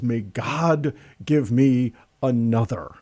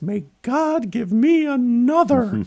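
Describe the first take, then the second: First: It is said in the speaker's normal voice. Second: It is said in a high, feminine voice.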